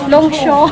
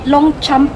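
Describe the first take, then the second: First: The name is said with a French-style ending. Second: The name is said just as it is spelled. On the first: "hindi ko alam kung paano siya i-pronounce" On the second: "Alam ko na hindi siya Longchamp pag pag-pronounce"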